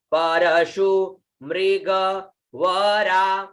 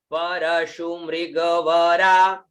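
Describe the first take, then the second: First: परशु मृगवरा very slow, broken into separate pieces; word by word. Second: परशु मृगवरा run together in one slow phrase; joined-up model reading. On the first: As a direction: teach परशु मृगवरा piece by piece, vowels held. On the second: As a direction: link परशु मृगवरा smoothly, last vowel held. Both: Shown as a demonstration. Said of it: "म में री की मात्रा".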